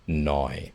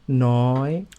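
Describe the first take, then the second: First: The pitch stays low throughout the word. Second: The pitch starts high and rises higher. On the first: "if you say nai and you keep it down low" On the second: "the high tone. ... I start high and go higher"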